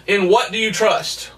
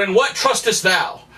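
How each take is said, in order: First: Said in the usual way. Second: Put-on "In what trustest thou?" in old-fashioned Bible English; lightly formal archaic wording, "trustest thou" said plainly; mock King James phrasing. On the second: Shown as a demonstration. Preacher offers an old Bible-style version, lightly formal. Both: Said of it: "I could have put".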